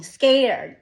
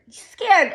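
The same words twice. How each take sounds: First: Said in the usual way. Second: "Scared" cried out high and loud; anguished cry. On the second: Real, not acted. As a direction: burst out on "Scared". Repeats fearful word louder.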